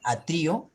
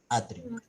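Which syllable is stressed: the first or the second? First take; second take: second; first. First: The stress is on the second syllable. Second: The stress is on the first syllable. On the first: "ahí sí lleva una tilde porque está en la mayor fuerza de voz, está en la I" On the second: "Ahí no hay"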